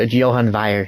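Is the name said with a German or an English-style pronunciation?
German. The name is said with German-style pronunciation. The speaker calls it right. "I pride myself on pronunciation"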